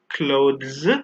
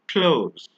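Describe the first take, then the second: First: The 'th' sound is pronounced clearly. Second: The 'th' is dropped, sounding like 'close'. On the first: The speaker calls it wrong. "So we don't say clothes" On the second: The speaker calls it right. "we say clothes"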